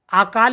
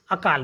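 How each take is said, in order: First: आकाल with a drawn-out opening "aa"; wrong long first vowel. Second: अकाल with a light, short opening "a"; no weight on the first vowel of अकाल. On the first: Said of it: "अकाल बोलेंगे". (आकाल, शुरू में लंबा आ) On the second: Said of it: "इतना जोर नहीं देंगे". (अकाल, शुरू में छोटा अ) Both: Shown as a demonstration.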